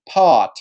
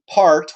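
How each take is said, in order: First: No R is heard after the vowel. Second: The R after the vowel is clearly pronounced. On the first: "a British speaker would use pot" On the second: "Americans would ... pronounce a word like uh, part part with the R sound"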